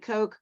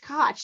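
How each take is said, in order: First: The name rhymes with coke. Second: The name rhymes with Scotch. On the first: The speaker calls it wrong. "It could be Coke" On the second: The speaker calls it right. "It's Koch, like Scotch"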